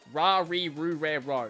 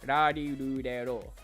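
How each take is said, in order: First: The consonant sounds like an English R. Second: The consonant falls between R, L and D. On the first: The speaker calls it wrong. "I'd probably pronounce it like ra re ru re ro, which is not at all closely" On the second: The speaker calls it right. "but it's like somewhere in between"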